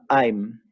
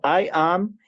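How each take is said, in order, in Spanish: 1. Las dos palabras se unen en una sola sílaba. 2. Dos palabras separadas, ambas pronunciadas completas. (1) "con contracción me quedará" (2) "tengo I am"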